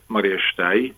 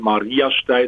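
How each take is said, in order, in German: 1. Die Betonung liegt auf dem letzten Teil, Stein. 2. Die Betonung liegt auf dem ersten Teil, Maria.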